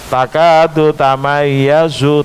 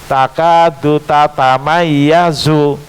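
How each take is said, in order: First: The second word is said in shortened form. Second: The second word is said with an extra syllable. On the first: This is the common Hafs reading. "bukan takadu tamayyazu" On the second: This is the original, unshortened reading. "dibaca sesuai aslinya"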